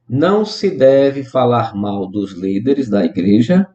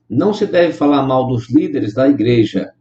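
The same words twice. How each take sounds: First: It is read slowly, with deliberate pauses. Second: It is read at an ordinary speaking pace.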